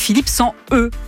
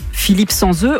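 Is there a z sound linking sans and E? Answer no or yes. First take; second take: no; yes. First: No z sound links sans to E. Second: A z sound links sans to E. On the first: The speaker calls it right. "on dit Philippe sans E ... on ne fait pas de liaison avec les lettres" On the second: The speaker calls it wrong. "éviter des impairs en diction comme Philippe sans E"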